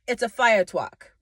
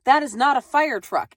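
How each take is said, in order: First: "fire truck" said as "fire twuck", w for r; child says "truck" with a w sound. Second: "fire truck" with a clear r sound in "truck"; adult says "truck" with a proper r. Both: Acted. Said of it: "You can't even say the word truck".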